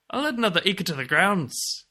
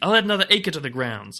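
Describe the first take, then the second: First: It is said in a put-on Irish accent. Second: It is said in the speaker's ordinary accent.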